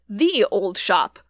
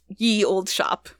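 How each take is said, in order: First: The first word begins with a th sound. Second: The first word begins with a y sound. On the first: This is the reading the spelling originally intended. "it was actually supposed to be read the old shop" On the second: This is the common modern reading of the spelling. "since we know Y makes the y sound, it's just ye old shop"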